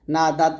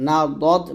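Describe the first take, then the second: First: না দাত with light D and open vowel; wrong thin dal. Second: না দত with heavy rounded D; correct thick dad. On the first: Teacher warning learners off it, না দাত with thin D. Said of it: "এটা কিন্তু বলবেন না". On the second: Teacher correcting learners, না দত with thick D. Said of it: "না দত বলতে হয়". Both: Shown as a demonstration.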